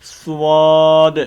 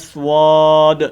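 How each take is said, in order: First: The lips round, adding a w-like glide. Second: The lips round, adding a w-like glide.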